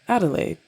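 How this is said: The name is said in an American way.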